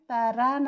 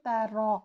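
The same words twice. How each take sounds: First: The r is pronounced thin and light. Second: The r is pronounced thick and heavy. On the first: The speaker calls it wrong. "तारा ना हो" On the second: The speaker calls it right. "रॉ को मोटा पढ़ना है"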